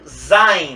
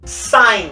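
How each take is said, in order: First: The word begins with a z sound. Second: The word begins with an s sound. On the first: "most people sang Zine" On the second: "it should be sign with S"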